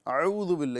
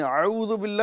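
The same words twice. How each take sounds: First: اعوذ begun with a throaty ع sound; wrong pronunciation. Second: اعوذ begun with ع instead of hamza; wrong pronunciation. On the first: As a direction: open اعوذ with ع instead of a glottal stop. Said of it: "یہ تو عین سے شروعات ہو گئی". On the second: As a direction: start اعوذ with a throaty ع, the wrong way. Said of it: "نہیں بولیں گے". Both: Shown as a demonstration.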